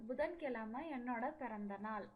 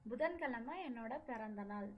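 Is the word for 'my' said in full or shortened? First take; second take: shortened; shortened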